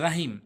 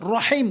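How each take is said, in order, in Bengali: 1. r-টি পাতলা, সঙ্গের স্বরটি হালকা। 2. r-টি ভারী, মুখ পূর্ণ করে বলতে হয়। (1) "অনেকেই বলে" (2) "র মুখ পুর করে বলতে হবে"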